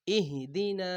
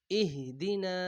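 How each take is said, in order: Both takes have the same delivery.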